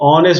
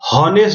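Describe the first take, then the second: First: The word begins directly with a vowel. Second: The word begins with an h sound. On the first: The speaker calls it right. "ऑनेस्ट बोलते" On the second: The speaker calls it wrong. "हॉनेस्ट नहीं बोलते हैं इसको"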